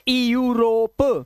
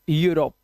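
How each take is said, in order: First: It begins with an 'ee' sound before 'you'. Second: It begins directly with a 'you' sound. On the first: The speaker calls it wrong. "It's not ई यूरोप" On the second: The speaker calls it right. "It's यूरोप"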